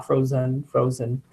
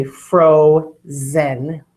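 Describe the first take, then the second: First: "frozen" said casually, second vowel a weak uh; relaxed, softer "frozen" with an unstressed ending; schwa in frozen. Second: "frozen" drawn out slowly as FRO... ZEN; spelling voice, "frozen" with a full short e in zen. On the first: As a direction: say "frozen" the everyday way, zen reduced to z'n. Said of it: "It's using a schwa". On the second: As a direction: split "frozen" into two clear, equal syllables. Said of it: "So you say frozen". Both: Shown as a demonstration.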